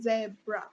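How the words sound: It is said in a British accent.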